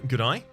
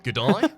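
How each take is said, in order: First: It is said in an ordinary, unexaggerated accent. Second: It is said in an exaggerated Australian accent.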